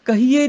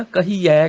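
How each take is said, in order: First: ਕਹੀਏ high, ending in close 'e'; wrong close vowel. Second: ਕਹੀਐ slow, ending in open 'ai'; corrected open vowel. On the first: Teacher showing the mistake, ਕਹੀਏ with close 'e'. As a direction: say ਕਹੀਏ as 'kahee-ay'. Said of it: "ਕਹੀਏ ਨਹੀਂ ਕਹਿਣਾ". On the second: Teacher correcting, ਕਹੀਐ slow with open 'ai'. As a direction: stretch the open end of ਕਹੀਐ. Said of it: "ਕਹੀਐ ਕਹਿਣਾ". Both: Shown as a demonstration.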